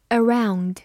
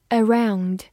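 Both takes have the same delivery.

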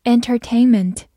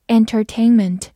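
Both takes have the same delivery.

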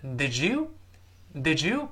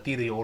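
First: "did you" run together as "didju"; linked did you. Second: "did you" misread as "dee-duh-yo"; clumsy unblended "did you" as the mistake; unlinked did you. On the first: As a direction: slowly model "did you" with a j sound in the middle. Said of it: "连读之后一定会变成". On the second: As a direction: say each sound of "did you" separately, with an extra uh. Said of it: "不是did you". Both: Shown as a demonstration.

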